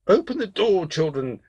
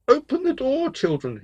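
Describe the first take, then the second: First: Wolf calling out roughly, posing as mother; gruff wolf. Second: Very high, put-on sweet call; wolf faking a mother's soft voice; soft-voiced wolf. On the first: Wolf at the goats' door pretending to be mother, gruff. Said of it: "heard that the voice was gruff". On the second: Wolf with syrup-softened voice calls to the goats, high and soft. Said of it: "called in his new soft voice". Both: A narrator's reading.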